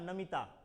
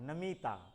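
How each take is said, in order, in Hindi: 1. पहला स्वर 'a' जैसा बोला जाता है। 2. पहला स्वर 'a' जैसा बोला जाता है।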